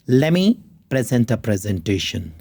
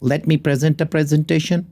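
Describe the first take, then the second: First: Let me is blended into one word, lemme. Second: Let me is said as two full words.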